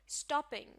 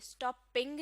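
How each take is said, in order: First: The stress is on the first syllable. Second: The stress is on the second syllable. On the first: The speaker calls it right. "Stress शुरू के हिस्से पर होगा" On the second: The speaker calls it wrong. "Stopping नहीं। यानी इस word के दूसरे हिस्से पर आपने स्ट्रेस नहीं देना"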